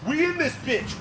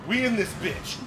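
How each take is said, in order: First: Chanted, higher, louder, "We" punched high; chanted, pump yourself up; chanted, louder repeat of "We in this bitch" with "We" stressed; hyped up chant. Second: Hyped. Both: Real, not acted.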